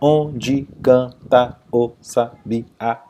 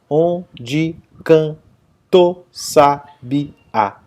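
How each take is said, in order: First: Canta and o are kept as separate syllables. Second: Canta and o merge into one syllable. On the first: "Separando em sílabas gramaticais" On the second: "o final do tá com o artigo o é uma sílaba só"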